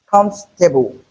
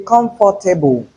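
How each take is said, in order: First: Comfortable in three syllables, KUMF-te-bul; correct pronunciation of comfortable. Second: Comfortable in four syllables, com-for-ta-ble; mispronounced comfortable. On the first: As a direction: drop the "or" from comfortable. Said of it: "The correct pronunciation". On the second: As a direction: sound the "for" in comfortable. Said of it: "you are wrong". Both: Shown as a demonstration.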